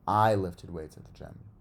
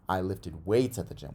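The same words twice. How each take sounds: First: The stress falls on the word I. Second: The stress falls on the word weights. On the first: It tells who did the lifting. "kind of answers who" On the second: It tells what was lifted. "What'd you lift at the gym?"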